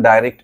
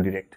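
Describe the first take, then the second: First: ডাইরেক্ট with a "dai" first syllable; "dai-rekt" pronunciation. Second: ডিরেক্ট with a short "di" first syllable; "di-rekt" pronunciation. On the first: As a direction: say ডাইরেক্ট opening on the diphthong "ai". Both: Shown as a demonstration. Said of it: "এক একজন এক এক রকম বলে".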